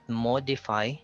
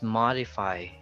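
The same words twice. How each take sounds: First: The first vowel is a rounded oh sound. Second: The first vowel is an open ah sound. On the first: The speaker calls it wrong. "So it's not modify" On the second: The speaker calls it right. "it's modify"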